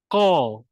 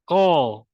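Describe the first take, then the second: Both takes have the same delivery.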